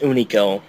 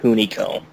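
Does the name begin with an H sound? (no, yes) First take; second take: no; yes. First: The name begins with a vowel, no H. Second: The name begins with an H sound. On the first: The speaker calls it right. "it's pronounced Unico" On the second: The speaker calls it wrong. "not Hunico"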